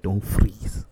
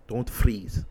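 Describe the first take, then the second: First: Loud clipped order, put-on voice; movie warrior command. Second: Movie line quote. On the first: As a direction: bark the order like a warrior general. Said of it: "She's like". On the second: Retold or imitated.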